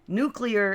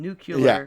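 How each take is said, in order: First: The word is said as nu-clear. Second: The word is said as nu-cu-lar. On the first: The speaker calls it right. "is correct" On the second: The speaker calls it wrong. "is wrong"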